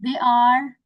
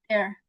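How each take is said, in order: First: Said in the usual way. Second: "they're" squeezed into one syllable; contracted form. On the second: Shown as a demonstration. Teacher showing learners how to contract, contracted "they're". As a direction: say "they're" as one short word. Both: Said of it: "you can contract it like this".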